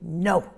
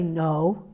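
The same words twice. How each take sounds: First: It is said sharply and low. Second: It is said softly, without sharpness.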